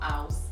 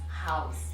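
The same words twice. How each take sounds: First: The word starts without an H sound. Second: The word starts with a breathy H sound. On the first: The speaker calls it wrong. "So it's not house" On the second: The speaker calls it right. "it is house, house. So you're aspirating"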